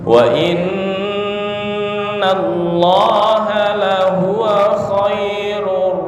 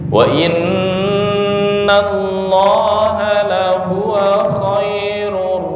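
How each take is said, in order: The two takes are said the same way.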